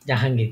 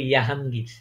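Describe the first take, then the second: First: The name begins with a J sound. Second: The name begins with a Y sound. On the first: This is the local way of saying it. "কিন্তু ওরা যেটাকে উচ্চারণ করে না।" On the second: This is how German speakers say it. "ওরা এটাকে উ উচ্চারণ করবে ইয়াহাঙ্গীর"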